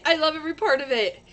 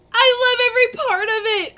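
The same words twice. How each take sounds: First: Said in the usual way. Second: "I love every part of it" said high and loud, squealing with delight; excited. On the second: Real, not acted. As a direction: gush the line, pitch up and louder. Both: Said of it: "I get excited about things".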